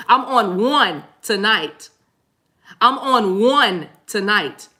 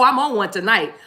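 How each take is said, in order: First: Very slow, each word stretched for emphasis; slow, drawn out. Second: Said in the usual way. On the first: Real, not acted. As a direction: spell it out slowly for the back row. Repeats line ever slower for effect.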